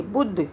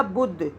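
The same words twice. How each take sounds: First: बुध with a quick short u; बुध, short vowel. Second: बुध with a short clipped u; बुध, quick u. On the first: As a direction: clip the u in बुध. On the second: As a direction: say बुध fast. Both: Shown as a demonstration. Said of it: "छोटा ऊ लगेगा बा पर".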